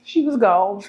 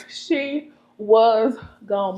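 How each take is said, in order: First: Said in the usual way. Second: Very slow, stretched words; drawn out. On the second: Acted. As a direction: stretch every word out. Repeats for emphasis, drawn out.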